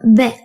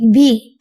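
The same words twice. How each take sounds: First: The vowel is a short 'eh' sound. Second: The vowel is a long 'ee' sound. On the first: The speaker calls it wrong. "and not be" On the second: The speaker calls it right. "what makes them sound like be"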